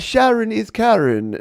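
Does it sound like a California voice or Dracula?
Dracula. It is said in a Dracula-like voice.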